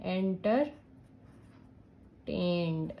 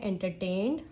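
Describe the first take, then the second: First: "Entertained" very slowly as enter, long pause, tained; drawn out in parts. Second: Said in the usual way. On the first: Shown as a demonstration. Teacher adding ED to a word, drawn out in parts. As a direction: break "Entertained" apart as if writing it out. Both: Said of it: "अगर आपको ED add करनी है".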